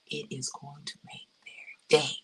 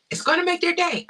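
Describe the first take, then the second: First: Low-key, deliberate promise with pauses; soft, weighted delivery, pausing before "day"; measured emphasis. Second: High, loud, delighted promise; high excited emphasis on "make their day"; excited insistence. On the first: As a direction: space the words out, softly and sincerely. First take of emphatic promise. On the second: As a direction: burst out with it, pitched way up. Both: Real, not acted.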